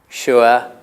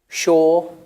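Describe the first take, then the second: First: The vowel has an 'oo-er' glide. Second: The vowel lacks the 'oo-er' glide. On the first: This is the older pronunciation. "in the past they had ur" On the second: This is the current pronunciation. "pronounced like that today"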